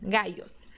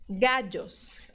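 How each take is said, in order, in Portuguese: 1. O duplo L soa como um glide Y. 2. O duplo L soa como um DJ. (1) "com o som de I mesmo do português" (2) "Outro som é o D J"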